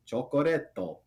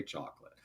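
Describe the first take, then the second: First: "chocoretto", each syllable sounded with a tapped r; Japanese accent. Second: Said in the usual way. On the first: Shown as a demonstration. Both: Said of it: "is how you say chocolate".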